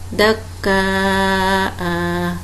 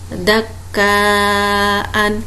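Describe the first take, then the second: First: The word ends with a long a vowel. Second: The word ends with an n sound.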